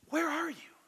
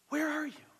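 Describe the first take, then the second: No difference in how they are said.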